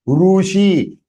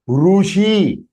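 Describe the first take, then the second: The two takes are said the same way.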